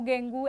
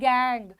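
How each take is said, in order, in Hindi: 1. यह दो अक्षरों में बोला जाता है, और oo पर खत्म होता है। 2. यह एक अक्षर में बोला जाता है, और ng पर खत्म होता है। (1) "डेंगू गेंगू ऐसे नहीं बोलना है इसको" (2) "ये क्या है, गैंग"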